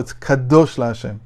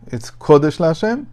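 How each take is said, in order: First: The first word begins with an 'a' vowel. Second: The first word begins with an 'o' vowel. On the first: It describes a people as holy. "when we say about the people" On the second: It refers to an animal as a holy thing. "when it was talking about um, the animal"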